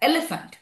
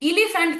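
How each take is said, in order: First: The first vowel is an open 'eh' sound. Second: The first vowel is a closed 'ee' sound. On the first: The speaker calls it right. "উচ্চারণটা কিন্তু অনেকটা এর মতো হচ্ছে" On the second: The speaker calls it wrong. "ইলিফ্যান্ট কিন্তু আমরা বলি না"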